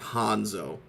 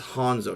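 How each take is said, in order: First: The first vowel sounds like 'ah'. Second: The first vowel sounds like 'oh'. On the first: The speaker calls it wrong. "not Hanzo" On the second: The speaker calls it right. "it's Hanzo, It's an O"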